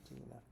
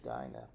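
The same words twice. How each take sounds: First: The name has a Hebrew pronunciation. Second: The name has an English pronunciation. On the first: "in Hebrew it would be Dinah" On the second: "we would pronounce it Dinah"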